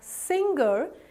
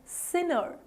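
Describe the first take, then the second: First: A g sound is heard in the middle. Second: No g sound is heard in the middle. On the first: The speaker calls it wrong. "widely mispronounced as singer" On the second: The speaker calls it right. "This G here is actually silent"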